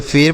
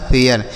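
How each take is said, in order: First: फेर as one syllable with a plain long "e"; mispronounced फेर. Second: फेयर in two syllables, "phe-yar"; "e-ya" pronunciation. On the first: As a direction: say फेर wrongly, with no "ya" glide before the r. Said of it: "यहाँ पर भी इसे ऐसे नहीं पढ़ना है". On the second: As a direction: glide from "e" into "ya" before the r in फेयर. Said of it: "उच्चारण ए य के रूप में होगा". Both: Shown as a demonstration.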